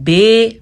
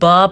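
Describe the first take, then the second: First: The letter name ends in an 'ay' vowel. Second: The letter name ends in an 'ah' vowel. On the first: This is the Urdu way of naming the letter. The speaker calls it wrong. "बाज़ लोग इसको पढ़ते हैं बे, बिल्कुल गलत है" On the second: This is the Arabic way of naming the letter. The speaker calls it right. "अरबी में इसको बा पढ़ा जाता है"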